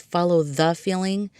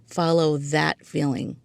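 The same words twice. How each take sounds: First: "the" said as a full, weighted word; stress on THE. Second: Slow, with weight on "that"; stress on THAT. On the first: Podcaster explaining a rejected episode title, stress on "the". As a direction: lean on "the" in "the Feeling". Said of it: "So I say, "Follow that feeling". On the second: Podcaster giving the title she chose, slow stress on "that". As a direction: lean deliberately on "that" before "feeling". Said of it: "So I say". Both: Shown as a demonstration.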